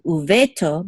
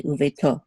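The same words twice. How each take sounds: First: Uveto stressed on the middle syllable, ve; misplaced stress. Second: Uveto stressed on its last syllable, to; stress on the final syllable. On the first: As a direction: lean on "ve" in uveto instead of "to". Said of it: "we don't say uveto". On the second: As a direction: let the weight fall on "to" in uveto. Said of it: "the accent is on to". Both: Shown as a demonstration.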